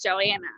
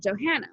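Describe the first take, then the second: First: The H is dropped from the name. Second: The H is pronounced, with a soft A. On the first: The speaker calls it wrong. "down here it's Joanna" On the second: The speaker calls it right. "Johanna, like a, a soft A"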